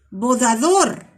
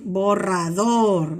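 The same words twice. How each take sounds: First: "Bodador", with D replacing the rolled R; assimilated sound. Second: Said in the usual way. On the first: Shown as a demonstration. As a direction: imitate the speech error "Bodador". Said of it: "en lugar de decir borrador". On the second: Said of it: "en lugar de decir".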